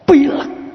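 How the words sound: It is said heavily, as a serious complaint. The cold is made to seem serious. "intonasinya dirubah"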